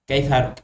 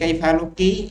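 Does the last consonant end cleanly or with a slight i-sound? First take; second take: cleanly; slight i-sound. First: The final consonant ends cleanly with no vowel. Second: The final consonant carries a faint trailing i-sound. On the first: "আর নয় সাকিন কাই ফারুক" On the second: "সাকিন করার পরে যদি কাই ফারুকী একটু জেরের ভাব আনবেন"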